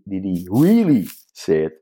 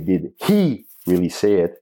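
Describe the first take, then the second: First: The stress falls on another word, not 'he'. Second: The word 'he' carries the stress.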